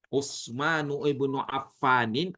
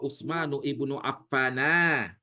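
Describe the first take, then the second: First: The name ends with an -in sound. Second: The name ends with an -a sound. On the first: The speaker calls it wrong. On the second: The speaker calls it right.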